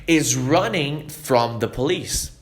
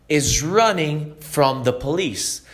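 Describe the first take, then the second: Both takes have the same delivery.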